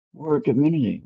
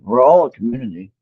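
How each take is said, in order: First: Said in the usual way. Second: All punched louder, falling tune; stress on all. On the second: Shown as a demonstration. Leader tells the group they are all one community, stress on all. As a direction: lean hard on the word all.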